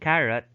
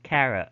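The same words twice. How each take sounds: First: The final t is a clear, released t. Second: The final t is a glottal stop. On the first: "instead of making it like a dental" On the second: "they would now make it a glottal"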